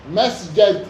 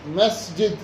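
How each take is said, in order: First: مسجد with short a after the ج: masjad; فتح الجيم. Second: مسجد with short i after the ج: masjid; كسر الجيم. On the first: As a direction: say مسجد with a fatha on the ج. (مسجد بفتح الجيم) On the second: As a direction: say مسجد with a kasra on the ج. (مسجد بكسر الجيم) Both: Shown as a demonstration. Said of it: "بالفتح".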